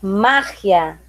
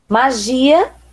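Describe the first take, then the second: First: The stress is on the first syllable. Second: The stress is on the second syllable.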